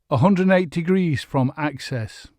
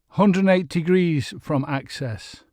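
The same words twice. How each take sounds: No difference in how they are said.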